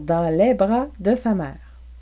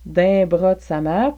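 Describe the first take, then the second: First: "Dans les" is said fully as two words. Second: "Dans les" is contracted to one syllable "din".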